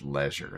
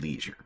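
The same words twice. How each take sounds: First: It is said in a fancy, British-sounding way. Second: It is said in a plain, American-sounding way.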